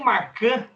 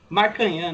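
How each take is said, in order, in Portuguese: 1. O nome termina sem uma sílaba nasal 'nhã'. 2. O nome termina com uma sílaba nasal 'nhã'. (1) "eu vi que eu estava errado" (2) "eles falaram Marcanhã"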